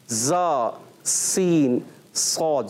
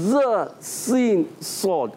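First: The tongue lightly touches, giving a whistling hiss. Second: The tongue tip is forced on, muffling the hiss. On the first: The speaker calls it right. "سیٹی بھی آئے گی" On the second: The speaker calls it wrong. "زبردستی لگا تو ہو جاتا ہے ز سین صاد"

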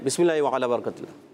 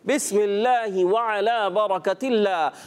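First: The phrase is rushed out quickly. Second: The phrase is said slowly with pauses. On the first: The speaker calls it wrong. "بہت جلدی دکھائی انہوں نے" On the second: The speaker calls it right. "آرام آرام سے اطمینان کے ساتھ ٹھہر ٹھہر کر"

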